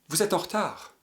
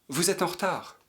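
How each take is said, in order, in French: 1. Les mots sont reliés par un enchaînement. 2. Les mots sont reliés par un enchaînement.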